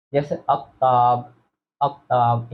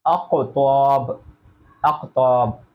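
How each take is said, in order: First: Said in the usual way. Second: अक्ताब with a bouncing echo on the k; slow, let the k in अक्ताब rebound; qalqala bounce. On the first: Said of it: "अब इसके दो तरीके हैं". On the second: Shown as a demonstration. Teacher shows students the bouncing qalqala. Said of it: "तो अक्को ये कलकला है".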